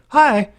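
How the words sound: It is said in a put-on sympathetic voice.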